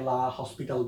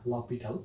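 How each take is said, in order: First: It has an h and an s sound. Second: It has no h and no s sound. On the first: The speaker calls it wrong. "অনেকে এটাকে লা হসপিটাল বলে" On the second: The speaker calls it right. "Actual উচ্চারণটা হচ্ছে লপিটাল"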